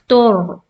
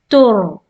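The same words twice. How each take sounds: No difference in how they are said.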